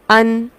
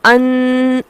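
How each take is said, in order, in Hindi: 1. अंतिम व्यंजन की ध्वनि केवल मध्यम रूप से रोकी जाती है। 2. अंतिम व्यंजन की ध्वनि को बहुत ज़्यादा खींचा जाता है। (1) "आवाज़ जारी भी है लेकिन बहुत ज़्यादा जारी नहीं हो रही" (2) "अन ऐसे नहीं पढ़ा जाता"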